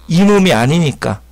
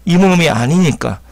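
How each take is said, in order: Both takes have the same delivery.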